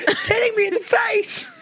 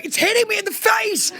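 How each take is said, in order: First: Laughing mock wail. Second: Much higher, falling wail of complaint; mock panicked wail. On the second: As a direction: whine it like spray is in your face. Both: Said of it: "Pete was going".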